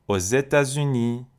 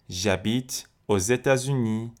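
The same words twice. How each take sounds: First: Aux États-Unis said with a z sound linking aux to États; لیزون با صدای ز; liaison on aux. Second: J'habite aux États-Unis slowly, with a z linking aux to États; full sentence with the z liaison, slow; لیزون با صدای ز، آهسته. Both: Shown as a demonstration.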